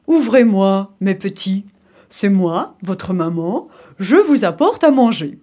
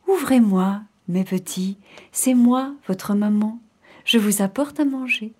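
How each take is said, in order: First: Big, loud wolf posing as mother; gruff wolf voice. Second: Sweetened wolf voice. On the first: Wolf pretends to be mother at the door, gruff big voice. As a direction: put on the wolf's big coarse voice. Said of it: "la grosse voix du loup". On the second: Wolf imitates mother at the door, gentle voice. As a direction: coax the kids in a gentle voice. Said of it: "sa voix était devenue toute douce". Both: Acted.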